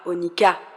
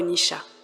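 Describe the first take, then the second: First: The middle consonant is a 'k' sound. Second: The middle consonant is a 'sh' sound. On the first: "On le prononce parfois onika" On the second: "parfois onisha"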